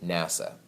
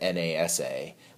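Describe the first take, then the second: First: The term is said as a single word. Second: The term is spelled out letter by letter. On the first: The speaker calls it right. "We say NASA" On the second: The speaker calls it wrong. "We don't say it's the NASA"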